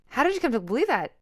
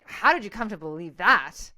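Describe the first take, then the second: First: It is asked in a genuinely curious tone. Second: It is asked in an accusing, judgmental tone.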